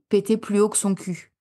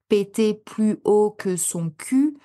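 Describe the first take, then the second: First: The words are reduced and run together. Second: Every word is pronounced fully and separately. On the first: The speaker calls it right. "on écrase un peu les mots" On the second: The speaker calls it wrong. "on dirait pas"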